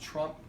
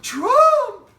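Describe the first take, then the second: First: The word is said in a calm voice. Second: The word is said in an excited voice. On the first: It marks the action without interrupting the dog. The speaker calls it right. "say it in a normal tone of voice" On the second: It can startle the dog and stop it peeing. The speaker calls it wrong. "if we use too excited a word"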